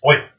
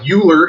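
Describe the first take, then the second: First: The name starts with an 'oi' sound. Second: The name starts without an 'oi' sound. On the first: The speaker calls it right. "but it's Euler" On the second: The speaker calls it wrong. "it looks like Euler if you grew up in America learning American English"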